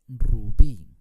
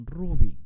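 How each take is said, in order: First: "rubí" slow, with a long stressed BÍ; stress on last syllable. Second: "rubí" wrongly punched high and loud on RU; stress on first syllable. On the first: Teacher showing how "rubí" is said, stressed on BÍ. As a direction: stretch the end of "rubí": ru-BIII. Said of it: "se dice rubí". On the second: Teacher showing how "rubí" is not said, stressed on RU. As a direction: say RU-bi, hitting the opening syllable of "rubí". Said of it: "No se dice rubí". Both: Shown as a demonstration.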